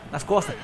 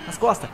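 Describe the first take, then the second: No difference in how they are said.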